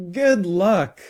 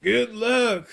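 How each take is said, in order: First: High, louder mock call; imitated yell. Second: Put-on high-pitched old teacher calling out; mild yell. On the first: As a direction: mimic yelling it at someone, pitched up. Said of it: "I'd never yell". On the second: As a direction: call it after someone leaving, voice up high. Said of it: "I'm pretty sure he yelled". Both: A narrator's reading.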